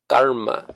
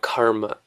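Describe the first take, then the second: First: The k is released without a puff of air. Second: The k is released with a puff of air. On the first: The speaker calls it right. "K by itself is unaspirated" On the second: The speaker calls it wrong. "we're mostly all saying it wrong"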